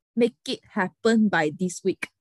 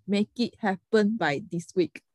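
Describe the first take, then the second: First: Said in the usual way. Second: "Make it happen by this week" spelled out word by word, very slowly; slow, deliberate quote. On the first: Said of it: "他就讲了六个字". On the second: Retold or imitated. Repeating the client's demand to friends, slow and pointed. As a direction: lay out each of the words with weight. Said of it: "对，六个字".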